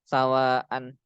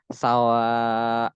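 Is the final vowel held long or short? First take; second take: short; long. First: The final vowel is kept short. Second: The final vowel is held long. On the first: The speaker calls it wrong. "dibacanya nggak nggak panjang" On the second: The speaker calls it right. "Jadi dia harus bacanya sawa"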